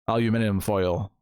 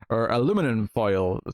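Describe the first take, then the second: First: It is said the British way, aluminium. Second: It is said the American way, aluminum.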